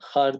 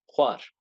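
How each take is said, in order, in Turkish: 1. Düz bir h ile başlıyor, w yok. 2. h ile başlıyor ve ardından bir w geliyor. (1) "Har demeyin. Har değil" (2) "diftonga özenin lütfen"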